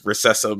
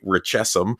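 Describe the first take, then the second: First: The middle consonant is a soft 's' sound. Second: The middle consonant is a 'ch' sound. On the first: This is how most people say it. The speaker calls it wrong. "everybody says recessum" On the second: This is the pronunciation found when looking it up. The speaker calls it right. "I try to say richessum"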